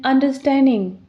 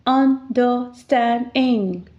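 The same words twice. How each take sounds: First: Said in the usual way. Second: 'understanding.' said slowly as un-der-stand-ing; slowly split into syllables. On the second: Shown as a demonstration. Teacher counting syllables for students, slowly sounding out 'understanding.'. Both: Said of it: "four vowels, so four syllables".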